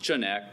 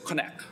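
First: It is read the way the spelling looks. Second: It is said the way Hebrew speakers say it. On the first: The speaker calls it wrong. "it looks like chonak" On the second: The speaker calls it right. "apparently the correct way is chonak"

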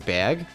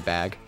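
First: It is said in a strong New York accent. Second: It is said in a neutral accent.

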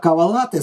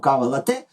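First: The stress is on the first syllable. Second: The stress is on the second syllable. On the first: The word came from Italian and means a specific coffee drink. "з наголосом на перший" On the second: The word came from French and means coffee with milk. "з наголосом на другий склад"

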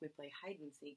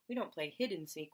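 First: The first word has a long i vowel. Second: The first word has a short i vowel. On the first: The speaker calls it right. "we play" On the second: The speaker calls it wrong. "We don't play"

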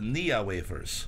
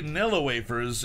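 First: The first word has no l sound. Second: The first word has an l sound. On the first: The speaker calls it wrong. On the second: The speaker calls it right.

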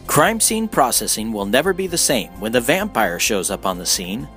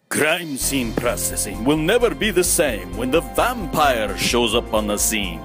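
First: It is said in a plain normal voice. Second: It is said in a put-on vampire voice.

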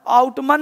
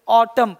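First: The final n is pronounced. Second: The final n is silent. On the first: The speaker calls it wrong. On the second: The speaker calls it right.

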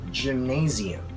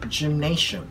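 First: The stress is on 'na'. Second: The stress is not on 'na'. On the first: The speaker calls it right. "We say gymnasium" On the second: The speaker calls it wrong. "this is not gymnasium"

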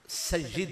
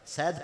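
First: An i vowel follows the y sound. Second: No vowel follows the y sound. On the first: "या के नीचे जेर पढ़ना जरूरी है" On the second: "इसे सकता इस पे जायज है"

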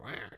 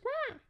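First: The call is imitated at a deeper pitch. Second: The call is imitated at a higher pitch. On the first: The speaker calls it right. "It's a little deeper pitch, ... Like that" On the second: The speaker calls it wrong. "Not like that"

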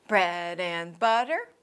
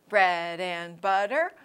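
The two takes are said the same way.

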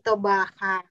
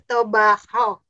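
First: The final syllable ends with an 'a' sound. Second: The final syllable ends with an 'o' sound. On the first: The speaker calls it wrong. "bukan tobaha" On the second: The speaker calls it right.

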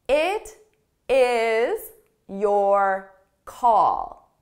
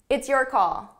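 First: The phrase is said slowly, words kept apart. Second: The phrase is said quickly, words run together. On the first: "So let me say it very slowly" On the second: "So it might sound a little fast to you"

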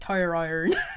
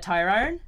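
First: The West Country accent is strong. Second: The West Country accent is mild. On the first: "the first time I said it was even worse than that. I was like proper like" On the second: "which is just a little bit too farmer"

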